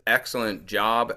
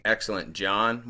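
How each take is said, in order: First: Said in the usual way. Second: "John" ending in an n instead of a b; job heard as John. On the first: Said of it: "she says". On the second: Retold or imitated. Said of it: "sounds to me like she's saying".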